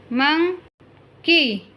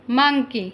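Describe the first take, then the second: First: Very slow, stretched monkey; slow careful model word. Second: Said in the usual way. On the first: Shown as a demonstration. Teacher modelling monkey slowly for listening pupils. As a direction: draw out monkey for the class. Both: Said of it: "listen to your teacher say the following words".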